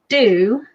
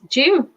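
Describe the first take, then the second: First: The word begins with a plain d sound. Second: The word begins with a j sound. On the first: This is how the listener's country says it. "You say do" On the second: This is how the speaker's country says it. "we pronounce them with a J"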